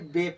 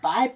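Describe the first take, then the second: First: The vowel sounds like 'ay' in 'say'. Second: The vowel sounds like 'eye'. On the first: The speaker calls it right. "बे पढ़ेंगे" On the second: The speaker calls it wrong. "तो ये गलत होगा"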